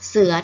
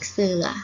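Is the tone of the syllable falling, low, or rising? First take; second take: low; rising. First: The syllable is said with a low tone. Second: The syllable is said with a rising tone. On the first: "เสือเอก" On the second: "สอเอือเสือ"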